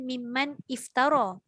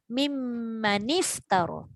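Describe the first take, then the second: First: The two words are said separately, nun unvoweled. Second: The words are joined with an 'i' after nun. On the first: "asalnya mimman iftara" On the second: "dibariskan dengan baris bawah"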